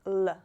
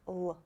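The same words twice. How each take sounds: First: L said the wrong way, like an English l; l demonstrated as the wrong sound. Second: L said the correct Russian way; l demonstrated as the right sound. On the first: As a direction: show the mistake with the sound l. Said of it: "It's not like l". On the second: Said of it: "It sounds like l". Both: Shown as a demonstration.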